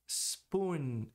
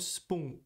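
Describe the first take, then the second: First: The word ends with a full, closed n. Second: The word ends with a weak nasal, no n. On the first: The speaker calls it right. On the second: The speaker calls it wrong.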